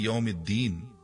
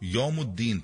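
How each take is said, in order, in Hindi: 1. m के बाद का स्वर 'i' है। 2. m के बाद का स्वर 'u' है। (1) "मालिकी यौमिद्दीन वाली आयत" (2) "मीम के नीचे जेर की जगह मीम पर पेश पढ़ते हैं"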